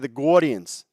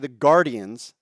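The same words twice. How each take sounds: First: It is said with a New York accent. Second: It is said with a general American accent. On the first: "they all talk like this and they say the Guardians" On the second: "They don't say the Guardians like we do"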